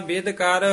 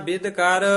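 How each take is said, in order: No difference in how they are said.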